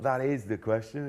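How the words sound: The stress falls on the word is. The speaker calls it wrong. "Where I choose to stress is"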